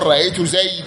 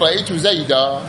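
First: The last word ends with no final vowel. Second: The last word ends with a long 'a'. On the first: This is the pausal form of one tribe's dialect. "إلا ربيعة، فإنهم وقفوا على نحو رأيت زيدا بالحذف" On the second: This is the usual pausal form among Arabs. "لهذا وقف عليه العرب بالألف"

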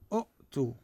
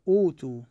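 First: A glottal stop closes the first syllable. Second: A long vowel follows the first vowel, no glottal stop. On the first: This is the underlying original form. The speaker calls it wrong. "أوتو أصلها شنو؟ أؤتو. أؤتو همزة ساكنة الثانية" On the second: This is the form actually spoken. The speaker calls it right. "مثلا نقول أوتو"

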